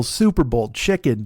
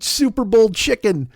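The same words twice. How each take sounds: First: Said in the usual way. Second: Amused. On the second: Acted. Repeating the phrase in amusement.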